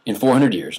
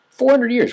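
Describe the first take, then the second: First: Said in the usual way. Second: Four hundred years pitched much higher and louder, with hundred hit hardest; emphatic repeat. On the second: Shown as a demonstration. Stressing the four centuries to students, emphatic and high. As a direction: ring out hundred in Four hundred years well above the speaking voice.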